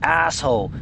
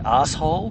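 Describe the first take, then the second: First: It is said in an American accent. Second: It is said in an Australian accent. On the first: "I said that in the American way" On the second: "we'd say"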